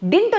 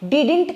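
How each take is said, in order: First: The word is said as one short syllable. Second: The word is said with two full syllables. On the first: The speaker calls it right. "డింట్ అంటాం చాలా బాగుంటుంది" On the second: The speaker calls it wrong. "డిడింట్ కాదు"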